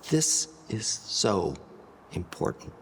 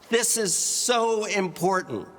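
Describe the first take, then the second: First: The phrase is spoken at a softer volume. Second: The phrase is spoken at a louder volume. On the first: "Or by changing your volume to be even softer" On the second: "We've increased our volume"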